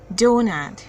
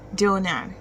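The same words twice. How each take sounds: First: The second syllable has a full 'a' vowel. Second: The second syllable has a full 'a' vowel.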